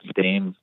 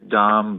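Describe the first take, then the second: First: The vowel is an 'ay' sound. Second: The vowel is an open 'ah' sound. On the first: "but Dame, whatever" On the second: "I think it's Dom"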